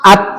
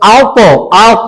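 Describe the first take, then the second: First: The final t stops plainly without a bounce. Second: The final t bounces with a short echo. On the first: "আত বলা যেত তো" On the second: "এই যে ইকোর মতো"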